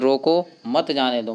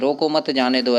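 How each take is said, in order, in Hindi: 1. roko के ठीक बाद विराम है। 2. इस वाक्य में बीच में कोई विराम नहीं है। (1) "मतलब रोकना चाह रहा है" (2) "देखो यहाँ पे कोई चिन्ह नहीं है"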